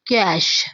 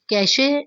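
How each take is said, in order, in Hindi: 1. यह 'sh' पर खत्म होता है, उसके बाद कोई स्वर नहीं है। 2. आखिरी 'sh' के बाद एक अतिरिक्त स्वर ध्वनि आती है। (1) "ई जो है वो प्रोनाउंस नहीं होता" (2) "कैशे नहीं, ये रॉन्ग है"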